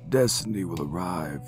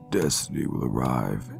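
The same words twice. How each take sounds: First: The voice is pitched a little higher. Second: The voice is pitched a little lower. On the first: "for the tone" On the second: "then you go a little bit lower"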